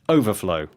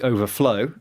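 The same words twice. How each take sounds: First: The stress is on the first syllable. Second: The stress is on the last syllable. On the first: It is used as a noun. "with the stress on the First syllable" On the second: It is used as a verb. "Stress on the final syllable"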